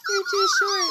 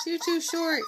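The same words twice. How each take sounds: First: Very high, louder squeaky coo. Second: Said in the usual way. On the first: Real, not acted. Same words said twice.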